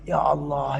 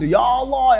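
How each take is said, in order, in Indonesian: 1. Itu digumamkan dengan suara lembut. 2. Itu diserukan dengan suara keras. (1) "dengan suara yang lembut" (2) "dengan suara keras itu"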